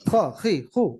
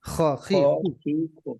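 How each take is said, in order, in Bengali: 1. সিলেবলগুলো দ্রুত বলা হয়, একসাথে জোড়া লাগানো। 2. সিলেবলগুলো ধীরে ধীরে বলা হয়, মাঝে ফাঁক রেখে। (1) "তাড়াতাড়ি হবে" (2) "একটু সময় নিয়ে ... মাঝখানে একটু গ্যাপ দিতে পারেন"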